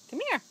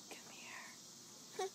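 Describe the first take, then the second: First: High sing-song call. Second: Breathy whispered call. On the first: Parent calling baby over, high sing-song. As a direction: lift it up high and bright. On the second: Parent whispering to baby to come over, hushed whisper. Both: Real, not acted.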